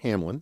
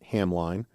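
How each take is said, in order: First: The last syllable has a short 'i' sound. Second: The last syllable has a long 'eye' sound. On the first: The speaker calls it right. "it's pronounced Hamlin" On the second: The speaker calls it wrong. "got into trouble uh, for pronouncing it Hamline, which is how it's spelled"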